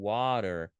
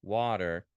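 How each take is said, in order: No difference in how they are said.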